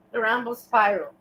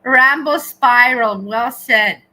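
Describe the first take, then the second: First: Said in the usual way. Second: Slow, booming call of the name; loud announcement. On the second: Real, not acted. Streamer booming a chat name out loud. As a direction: shout it out slowly, like an announcer.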